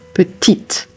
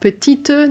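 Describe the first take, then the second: First: It ends on the T sound, final vowel silent. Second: A vowel sound is voiced after the final T. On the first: The speaker calls it right. "That final sound that you're hearing is a T sound" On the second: The speaker calls it wrong. "Not petite"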